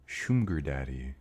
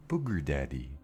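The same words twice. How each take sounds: First: "Schumger daddy" with the M moved before the g; corrected name. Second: "booger daddy" with a b, like booger; saying it like booger. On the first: Streamer fixes the name for chat, shoom-ger. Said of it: "The M in the wrong place". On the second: Streamer shows chat her mispronunciation, booger with a b. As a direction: says "booger daddy", the M in the wrong place. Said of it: "I keep saying it like booger". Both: Shown as a demonstration.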